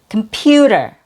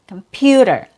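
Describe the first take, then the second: No difference in how they are said.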